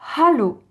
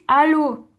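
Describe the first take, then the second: First: The word starts with a breathy h sound. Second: The word starts directly on the vowel. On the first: The speaker calls it right. "Il faut bien dire hallo. Donc H expiré" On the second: The speaker calls it wrong. "Si vous dites allô à un Allemand, il va pas comprendre"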